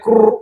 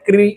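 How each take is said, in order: First: The vowel after k sounds like 'oo'. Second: The vowel after k sounds like 'ee'. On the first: "કોઈ એને ક્રુ એમ કરીને ક્રુ એમ જેમ આપણે બોલીએ છીએ" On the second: "ક્રી એ પણ એનું ઉચ્ચારણ કરે છે ઘણા લોકો"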